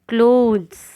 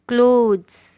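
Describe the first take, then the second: No difference in how they are said.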